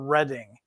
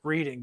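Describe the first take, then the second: First: The first syllable sounds like 'red'. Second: The first syllable sounds like 'reed'. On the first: The speaker calls it right. "think of it as the color red" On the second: The speaker calls it wrong. "if you're from the Midwest, you'll pronounce it Reading, but that's incorrect"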